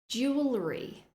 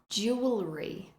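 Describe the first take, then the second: Both takes have the same delivery.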